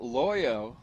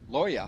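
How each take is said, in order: First: The name ends with an 'oh' vowel. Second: The name ends with an 'ah' vowel. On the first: The speaker calls it wrong. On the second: The speaker calls it right.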